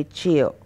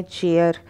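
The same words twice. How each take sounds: First: चेयर as "chay-uh", no r sound; चेयर without the final r; correct pronunciation. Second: चेयर with a rolled r at the end; चेयर ending on a clear r; wrong pronunciation. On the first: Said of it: "आप कहेंगे". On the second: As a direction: say चेयर the common way, sounding the final r. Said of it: "चेयर बोलते हैं इसको हम". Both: Shown as a demonstration.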